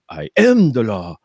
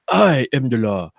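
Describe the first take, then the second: First: The stress is on the word am. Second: The stress is on the word I.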